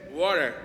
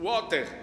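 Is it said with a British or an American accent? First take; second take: American; British. First: It is said with an American accent. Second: It is said with a British accent.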